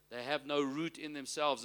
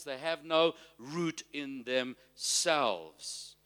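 First: Said in the usual way. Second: Slow, drawn-out delivery; slow emphasis. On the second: Real, not acted. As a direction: stretch out "root" and "themselves" for weight. Preacher stresses key verse phrase.

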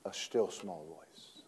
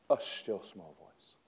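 First: Barely above a breath, slow and hushed; still small voice. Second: Hushed and soft, let it hang; still small voice, repeated. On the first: Preacher reading of God's quiet voice, hushed. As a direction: let the words fade to almost nothing. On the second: Preacher repeating the verse to the church, hushed. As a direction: echo the phrase under your breath. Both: Shown as a demonstration.

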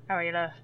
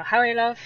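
First: Belfast accent through barely moving lips; tight-lipped Belfast accent. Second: Higher, louder Donegal accent. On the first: Irish guest showing lip-read-proof northern speech, tight-lipped Belfast accent. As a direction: greet in Belfast, lips held still. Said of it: "they never move their lips". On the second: Irish guest demonstrating Donegal speech to an American, strong Donegal accent. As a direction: greet someone in strong Letterkenny Donegal. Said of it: "So the Donegal, it becomes quite". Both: Shown as a demonstration.

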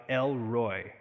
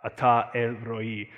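First: "El Roi" said the American way, slow, with an English R and a gliding "Roi". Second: "Ata El Roi" said slowly and carefully, each Hebrew syllable clear, "Roi" as ro-ee. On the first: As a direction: say "El Roi" like a casual American, drawn out. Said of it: "the American sort of killing of the Hebrew". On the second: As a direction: give "Ata El Roi" its Hebrew sounds, deliberate and a bit louder. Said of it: "the Hebrew". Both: Shown as a demonstration.

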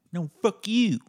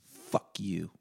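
First: Yelled high and loud, topping the insult; mock shouted comeback. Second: Said in the usual way. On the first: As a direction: bark it back much higher and louder to win.

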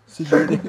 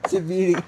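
First: Loud, snappy brush-off; loud diva dismissal. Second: Diva dismissal repeated. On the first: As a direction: toss it off like a diva. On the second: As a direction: say it again, still dismissive. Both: Retold or imitated. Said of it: "Aí ela falou assim".

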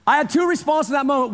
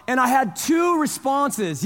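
First: Fast, light repeat; quick recap of two responses; quick restatement. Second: Slow, weighted announcement; slow stress on two; slow emphatic. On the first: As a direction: rush through the restatement. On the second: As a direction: lay it down slowly. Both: Real, not acted.

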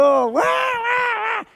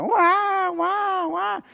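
First: Very high, stretched-out, shouted newborn wail; drawn-out imitated baby wail, loud. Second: High, short imitated newborn wails; light imitation of a baby crying. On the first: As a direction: wail it out slow like a newborn's first cry. Imitating newborn baby crying again. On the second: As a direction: mimic a newborn's first cries, fading off.

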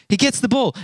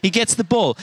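No difference in how they are said.

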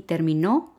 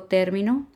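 First: Terminó with a stressed final O; stress on last syllable. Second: Término stressed on TÉR; stress on first syllable. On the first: Teacher repeating the verb example for learners, terminó stressed on final O. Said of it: "se acentúa en la última O". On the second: Teacher repeating the example for hard-of-hearing learners, término stressed on TÉR. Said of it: "Pero repito". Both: Shown as a demonstration.

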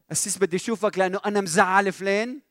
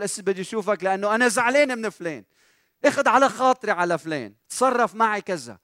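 First: Higher-pitched questioning confession, rising at the end; owning the blame. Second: High, loud mock grievance; aggrieved complaint. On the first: Acted. Imagined church member phones the pastor to confess, owning the blame. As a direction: ask it as an imagined caller admitting fault. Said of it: "في حدا شي مرة بيتلفن وبيقول لك". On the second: Imagined church member phones the pastor about someone, aggrieved complaint. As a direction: complain like an offended caller. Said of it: "على طول".

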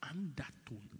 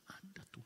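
First: Said in the usual way. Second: Whispered softly. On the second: Shown as a demonstration. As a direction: breathe undertone out.

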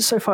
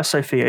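First: "SoFi" ending like "fie"; alternative pronunciation. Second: "Sophia" said as SO-fee, ending like "fee"; alternative pronunciation. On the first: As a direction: say "SoFi" as SO-fye. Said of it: "is it SoFi or Sophia". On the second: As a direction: say "Sophia" as two syllables, SO-fee. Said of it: "If it's Sophie". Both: Shown as a demonstration.

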